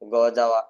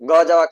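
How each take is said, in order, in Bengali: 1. বাক্যটি ধীরে বলা হয়েছে। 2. বাক্যটি দ্রুত বলা হয়েছে। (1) "আপনাকে ধীরে ধীরে বলতে হবে" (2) "এভাবে বললে হবে না"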